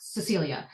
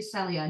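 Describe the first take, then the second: First: "Cecilia" with the extra syllable, suh-SEE-lee-ah; the wrong version: "Cecilia", four syllables; wrong name. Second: "Celia" said short, three syllables, SEH-lee-ah; the right way: "Celia", no extra syllable; correct name. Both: Shown as a demonstration. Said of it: "my name is actually Celia, not Cecilia".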